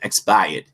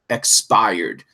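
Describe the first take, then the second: First: It is said in a Boston accent. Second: It is said in a neutral accent.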